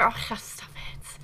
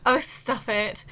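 First: Breathy whisper, slow and shy. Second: Said in the usual way. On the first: Real, not acted. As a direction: brush off the compliment in a whisper. Bashful reply to chat.

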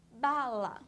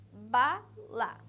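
First: "bala" drawn out, first syllable punched; sounded-out word. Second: "bala" split into ba, la with a clear pause; sounded-out syllables. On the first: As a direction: stretch "bala" slowly, louder on "ba". ("bala" alongada, com ênfase no começo) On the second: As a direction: punch "ba", pause, then "la" to finish "bala". ("bala" separada em sílabas, com pausa no meio) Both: Shown as a demonstration. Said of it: "Escutem o som da palavra".

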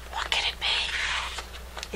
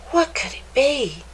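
First: Soft, slow whisper. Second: Said in the usual way. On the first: A narrator's reading. Narrator wondering about the thing in the cave, whispered. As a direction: hush it like a secret.

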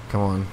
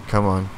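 No difference in how they are said.

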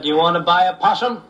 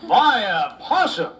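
First: Said in the usual way. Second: Slow, high, incredulous echo with a laugh; disbelief. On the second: Acted. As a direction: repeat it as if you can't believe it.

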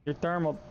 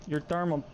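First: Said in the usual way. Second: Whispered. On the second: Shown as a demonstration. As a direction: whisper "your thermal" with no voice at all. Whispered repeat of thermal.

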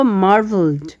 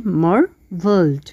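First: Said in the usual way. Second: মার্ভেলড said slowly in two parts; syllables split. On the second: Shown as a demonstration. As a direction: pull মার্ভেলড apart into two slow syllables. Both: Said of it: "দুভাগে ভাগ করতে পারি".

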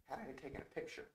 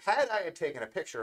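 First: Very soft, hushed voice; speaking softer. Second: Said in the usual way. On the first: Real, not acted. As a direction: drop right down in volume. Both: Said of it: "I don't know why I'm speaking softer".

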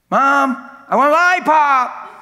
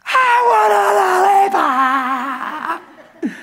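First: Put-on much higher, loud little kid's voice; child asking. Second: High, slow, wailing cry-shout; child tantrum. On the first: Little kid asking mom for a lollipop, high and loud. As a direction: whine it up like a small child. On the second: Retold or imitated. Kid throwing a tantrum at mom, crying and yelling. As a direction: bawl it like a toddler on the floor.

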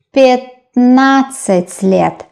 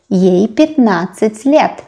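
First: "пятнадцать" slowly, first vowel as э, not я; long, careful syllables in "пятнадцать", opening with э; reduced vowel. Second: Said in the usual way. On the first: Shown as a demonstration. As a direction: sound out "пятнадцать" starting "пэт". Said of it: "We pronounce э".

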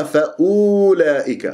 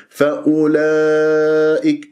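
First: فأولئك with the u stretched out; wrong long u. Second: Slow chant, short u and long laa in فأولئك; correct short u. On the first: Teacher shows misreading, lengthened u in فأولئك. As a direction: draw out "oo" in فأولئك. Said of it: "ما تقرأ". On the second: Teacher corrects the misreading, short-u chant of فأولئك. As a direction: keep u short, stretch only laa in فأولئك. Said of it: "فانتبه". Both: Shown as a demonstration.

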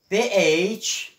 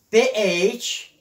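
No difference in how they are said.

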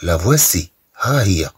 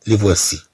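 First: لا فواسي with la before the plural noun; correct French article. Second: لي فواسي with li, the form not to say; wrong article demo. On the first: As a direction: say لا فواسي as la vwasi. (نطق لا فواسي بأداة la) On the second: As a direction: say لي فواسي as li vwasi, marked wrong. (نطق لي فواسي الخاطئ) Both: Shown as a demonstration. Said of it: "ولا نقول".

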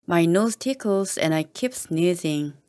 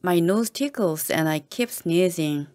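No difference in how they are said.

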